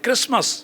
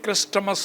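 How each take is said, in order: First: The t sound in the middle is silent. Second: A t sound is pronounced in the middle. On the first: The speaker calls it right. "కరెక్ట్గా పలకాలంటే క్రిస్మస్" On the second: The speaker calls it wrong. "కొంతమంది ఏమంటారంటే క్రిస్టమస్ అంటారు"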